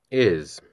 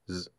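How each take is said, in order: First: The word is said fully with its vowel. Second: The word is reduced to a bare consonant. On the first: "strong and weak forms" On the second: "strong and weak forms"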